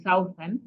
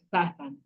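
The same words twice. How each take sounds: First: "southern" with OU said as the diphthong in "south"; wrong diphthong. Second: "southern" with OU said as a plain short A, "sa-thern"; correct short vowel. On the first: Teacher shows class the wrong way, "southern" with a diphthong. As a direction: say "southern" the wrong way, OU gliding like "sow-thern". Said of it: "We do not have it as a diphthong". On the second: Teacher models the right way, "southern" with short A. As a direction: give "southern" a single short vowel, no glide. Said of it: "The O U is pronounced as an A". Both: Shown as a demonstration.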